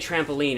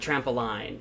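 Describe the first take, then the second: First: The last syllable rhymes with 'seen'. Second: The last syllable rhymes with 'line'. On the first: "we say trampoline" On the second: "instead of trampoline"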